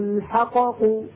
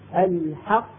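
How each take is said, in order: First: The first qaf is released with an echoing bounce. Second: The two qaf sounds merge without any bounce. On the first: The speaker calls it wrong. "لو قلقلناها لنفك الإدغام. هنقول عندئذ" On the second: The speaker calls it right. "القاف الأولى الساكنة خرجت بالتصادم على القاعدة الأصلية ولا تقلقل"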